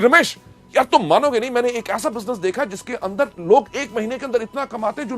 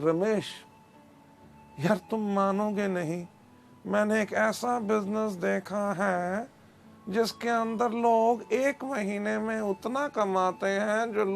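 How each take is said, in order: First: It is said with excited enthusiasm. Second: It is said flatly, without enthusiasm.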